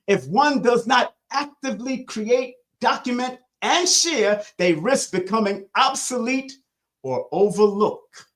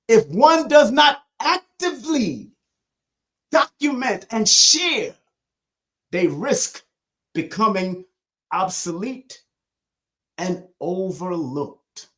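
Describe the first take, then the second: First: It is read at a faster pace. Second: It is read at a slower pace.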